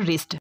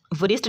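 First: "रिस्ट" starting straight on r; silent w. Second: "वरिस्ट" with w sounded before r; wrong pronunciation. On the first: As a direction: drop the w from "रिस्ट". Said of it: "ये पढ़ते हैं". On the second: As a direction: pronounce the w in "वरिस्ट". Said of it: "नहीं पढ़ते". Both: Shown as a demonstration.

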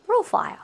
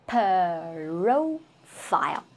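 First: "profile" said quickly, p and r blended, higher; quick natural take. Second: "Profile" dragged very slowly, p split off; very slow split sounds. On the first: Teacher giving the natural quick version, quick natural take. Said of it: "you have to say it quickly". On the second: Teacher demonstrating the slow broken-up version, very slow split sounds. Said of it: "you cannot separate the sound". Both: Shown as a demonstration.

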